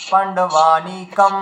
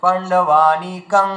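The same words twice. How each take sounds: First: পাণ্ডবানিকম said very slowly, closing the lips on a final m; drawn-out পাণ্ডবানিকম ending in m; teacher contrasting the m ending. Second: পাণ্ডবানিকং said very slowly, closing on a nasal ং; drawn-out পাণ্ডবানিকং with a nasal end; teacher contrasting the anusvara ending. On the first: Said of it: "ম উচ্চারণ করা যায়". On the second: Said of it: "অনুস্বর উচ্চারণ করা যায়". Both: Shown as a demonstration.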